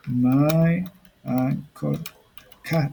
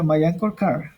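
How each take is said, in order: First: Very drawn-out words with gaps; slow word-by-word dictation. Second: Said in the usual way. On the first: Shown as a demonstration. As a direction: stretch each word as if typing it. Writing out the example word by word.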